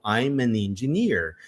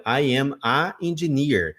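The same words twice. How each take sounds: First: Slow "I'm an engineer" with linked "an"; correct version. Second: Slow "I am a engineer" with plain "a"; wrong article. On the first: Shown as a demonstration. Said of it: "Ah, então". (pronúncia certa: "I'm an engineer") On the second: Retold or imitated. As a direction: say "a engineer" without the n. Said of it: "Aí eu falei". (pronúncia errada: "a engineer")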